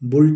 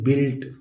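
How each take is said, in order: First: The vowel is a 'u' sound, as in put. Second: The vowel is an 'i' sound, as in bit. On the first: The speaker calls it wrong. "बुल्ट नहीं पढ़ेंगे" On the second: The speaker calls it right. "इसको पढ़ेंगे बिल्ट"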